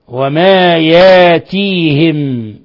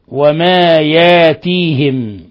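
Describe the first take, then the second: Both takes have the same delivery.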